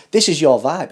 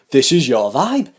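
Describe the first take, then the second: First: Said in the usual way. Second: Chanted, say it slowly for viewers to join in; slow chanted catchphrase. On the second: Shown as a demonstration. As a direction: lead a singalong chant of the slogan. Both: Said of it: "say it with me".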